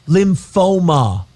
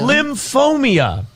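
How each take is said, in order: First: The word ends with a plain oh-muh sound. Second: The word ends with an added ee-uh sound. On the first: The speaker calls it right. "There's no I in there" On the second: The speaker calls it wrong. "You're inventing letters"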